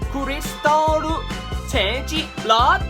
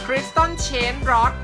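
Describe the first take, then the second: First: It is said with Japanese pronunciation. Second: It is said with a Thai accent. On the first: "ภาษาญี่ปุ่น" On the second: "สำเนียงแบบคนไทย"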